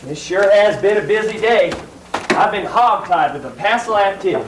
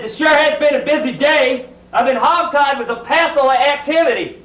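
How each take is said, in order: First: Hayseed line. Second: Hammed-up hayseed. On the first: Acted. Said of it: "I may be playing a hayseed". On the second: Actor mocking his dreadful line as a hayseed. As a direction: overplay the folksy hayseed to mock the line. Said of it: "please do not make me say that dreadful line again".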